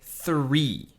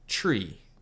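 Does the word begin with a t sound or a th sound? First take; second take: th; t. First: The word begins with a th sound. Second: The word begins with a plain t sound. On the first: The speaker calls it right. "but you need to say three" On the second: The speaker calls it wrong. "You say one, two, tree"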